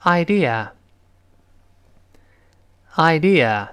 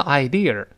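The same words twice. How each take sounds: First: "idea" slow, ending in open uh, no r; correct pronunciation. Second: "idea" with a curled r ending, eye-deer; wrong pronunciation. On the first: Teacher has students repeat, "idea" slowly without r. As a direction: say "idea" slowly, tongue uncurled, eye-dee-uh. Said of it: "一定后面是就是啊". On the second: Teacher shows students the mistake, "idea" ending in r. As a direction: curl the tongue at the end of "idea". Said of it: "它不能读成idea". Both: Shown as a demonstration.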